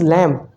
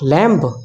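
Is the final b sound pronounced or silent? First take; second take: silent; pronounced. First: The final b is silent. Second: The final b is pronounced. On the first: The speaker calls it right. "Here b is silent" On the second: The speaker calls it wrong. "not lamb"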